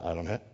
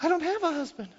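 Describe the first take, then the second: First: It is said in his normal own voice. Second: It is said in a put-on woman's voice.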